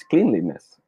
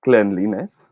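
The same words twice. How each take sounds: First: CLEANLINESS with a long ee, kleen-li-ness; second option. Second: CLEANLINESS with a short e, klen-li-ness; first option. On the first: Teacher quizzing viewers, cleanliness offered as kleen-li-ness. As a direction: say "cleanliness" starting like the word clean. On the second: Teacher quizzing viewers, cleanliness offered as klen-li-ness. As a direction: say "cleanliness" to rhyme its start with "pen". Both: Shown as a demonstration. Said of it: "How should we pronounce this word?".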